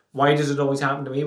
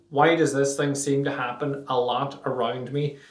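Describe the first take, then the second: First: Fast, throwaway poor-me question; rushed self-pity. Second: Genuine inquiry. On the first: Showing listeners the lazy version, rushed and throwaway. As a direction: rattle it off like a reflex complaint. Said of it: "Not just". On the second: Showing listeners the real question, asked sincerely. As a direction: ask it as if you really want the answer. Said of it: "but why?". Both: Shown as a demonstration.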